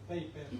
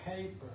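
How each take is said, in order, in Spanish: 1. La primera p no tiene soplo de aire. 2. La primera p tiene soplo de aire. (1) "como nosotros en español decimos, nosotros decimos paper" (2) "¿Cómo sería? Tiene aire, ¿no?"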